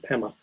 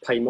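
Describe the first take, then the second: First: "pema" with a short e, PEM-ma; short-vowel pema. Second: "pema" with a long first vowel, PAY-ma. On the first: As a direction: say "pema" as PEM-muh, first vowel like "pen". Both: Shown as a demonstration. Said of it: "You might pronounce it pema".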